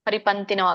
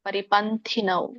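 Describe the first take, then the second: First: The middle t is plain, without a breath. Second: The middle t has a puff of breath. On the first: The speaker calls it wrong. "ಸಣ್ಣ ತ ಇದ್ರೆ ಪರಿಪಂಥಿನವ್ ಆಗುತ್ತೆ" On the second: The speaker calls it right. "ಅಲ್ಲಿ ದೊಡ್ಡ ಥ ಇದೆ"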